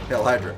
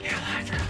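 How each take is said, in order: First: It is said in a normal speaking voice. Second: It is whispered in a creepy way. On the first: The speaker calls it wrong. "You can't just say it" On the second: The speaker calls it right. "you have to whisper it in someone's ear very creepily"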